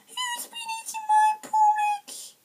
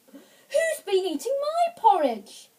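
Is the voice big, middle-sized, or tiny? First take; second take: tiny; middle. First: It is said in a tiny, small voice. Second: It is said in a middle-sized voice. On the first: "he said in his tiny wee voice" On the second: "she said in a middle-sized voice"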